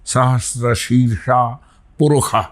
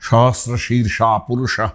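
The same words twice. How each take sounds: First: The consonants are sounded as 'kh'. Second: The consonants are sounded as 'sh'. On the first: "ঋগ্বেদের অনেক মন্ত্রই ... এরকম উচ্চারণ হয়" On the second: "আমরা যেমন ... এরকম বলি"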